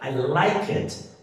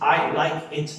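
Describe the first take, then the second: First: The words are linked smoothly together. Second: Each word is said separately, robotically.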